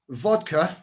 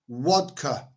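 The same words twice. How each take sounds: First: It is said in the speaker's plain accent. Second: It is said in a foreign accent without a clear V. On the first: "this is vodka" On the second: "if you're from Russia or certain parts of the Middle East, vodka, because they can't pronounce the V's"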